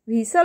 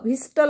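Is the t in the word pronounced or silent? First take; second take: silent; pronounced. First: The t sound is left out entirely. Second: The t sound is pronounced in the middle. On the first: The speaker calls it right. "असं pronunciation झाल्यामुळे त्या ठिकाणी टी is silent here" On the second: The speaker calls it wrong. "व्हिस्टल असं होते का उच्चार? नाही"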